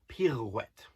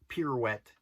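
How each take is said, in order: First: The R is rolled with a trill. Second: The R is said plainly, without a roll. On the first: The speaker calls it right. "rolling the R on pirouette" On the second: The speaker calls it wrong. "It's not pirouette"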